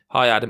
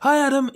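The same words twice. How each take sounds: First: It is said in a relaxed, normal voice. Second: It is said in a strained, effortful voice.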